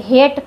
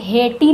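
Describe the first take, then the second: First: Said in the usual way. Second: हेटी with the final E sounded as ee; wrong pronunciation. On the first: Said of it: "पढ़ते हैं". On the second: Shown as a demonstration. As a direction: say हेटी in two syllables, ending in ee. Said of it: "नहीं पढ़ते".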